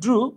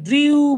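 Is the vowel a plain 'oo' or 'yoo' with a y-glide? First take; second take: oo; yoo. First: The vowel is a plain oo, no glide. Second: A y-glide comes before the vowel. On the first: The speaker calls it right. "এটা উচ্চারণ হচ্ছে ড্রু" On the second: The speaker calls it wrong. "আমরা অনেকে এটাকে ড্রিউ বলি"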